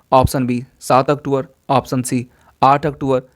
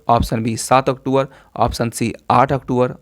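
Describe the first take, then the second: No difference in how they are said.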